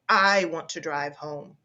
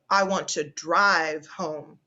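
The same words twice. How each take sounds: First: The stress falls on the word I. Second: The stress falls on the word drive. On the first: The speaker, not someone else, will be the driver. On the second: The speaker wants to take the car, not walk or get a taxi.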